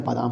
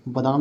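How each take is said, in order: First: बादाम starting with long baa; correct long vowel. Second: बादाम starting with short ba; wrong short vowel. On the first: Teacher correcting the word, long first vowel. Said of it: "होता है". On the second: Teacher showing the mistake, short first vowel. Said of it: "नहीं होता है". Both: Shown as a demonstration.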